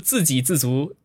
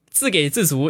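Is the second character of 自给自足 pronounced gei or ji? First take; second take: ji; gei. First: The second syllable is pronounced ji. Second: The second syllable is pronounced gei. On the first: The speaker calls it right. "应该读自给自足" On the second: The speaker calls it wrong. "很多人说上一期我读错了那个字"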